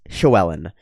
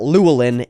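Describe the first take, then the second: First: The name begins with a hissing, breathy L sound. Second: The name begins with a plain L sound. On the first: The speaker calls it right. "it's Llywelyn" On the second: The speaker calls it wrong. "It's not Llewellyn"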